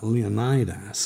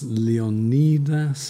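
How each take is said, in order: First: It is said the American way. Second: It is said the modern Greek way.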